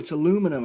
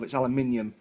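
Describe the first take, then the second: First: It is said with American pronunciation. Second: It is said with British pronunciation.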